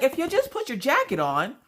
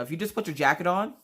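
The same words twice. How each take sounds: First: High, exasperated mock nagging; worked-up pleading. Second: More measured motherly explaining; calmed down. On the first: Mom to son about his jacket, worked-up pleading. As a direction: plead it before calming down. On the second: Retold or imitated. Mom explaining to son once settled, calmed down. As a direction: reason with him after calming down. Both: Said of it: "when I finally calmed down".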